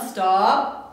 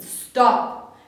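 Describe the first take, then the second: First: The pitch rises at the end. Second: The pitch falls at the end. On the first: It sounds like a question, doubting oneself. The speaker calls it wrong. "It's not stop. It's not a question" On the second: It is a firm, settled command. The speaker calls it right. "there's a downfall at the end"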